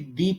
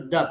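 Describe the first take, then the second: First: The word ends in a long 'ee' sound. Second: The word ends in a short 'uh' sound. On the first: A vowel sound follows the word. "जब vowel sound के साथ आता है तो फिर ये दी पढ़ा जाएगा" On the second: A consonant sound follows the word. "Consonant sound के साथ आता है तो द पढ़ा जाएगा"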